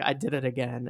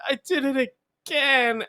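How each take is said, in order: First: Said in the usual way. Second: High, wailing mock sob of a kid; mock crying. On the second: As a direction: fake a crying child's whine. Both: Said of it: "I was crying even harder".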